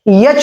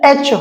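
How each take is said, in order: First: It begins with a y sound before the vowel. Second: It begins directly with the vowel sound. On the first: The speaker calls it wrong. "यच नहीं होता है" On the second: The speaker calls it right. "एच होता है"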